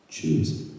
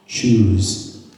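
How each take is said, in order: First: A low, breathy hushed repeat of Choose; whispered. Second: A firm, clipped order to choose; stern demand; stern command. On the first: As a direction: drop to a whisper, pleading her to decide. Repeated demand, dropped to whisper. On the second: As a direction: press her hard with one word. Rabbi demands the mother choose. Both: Retold or imitated.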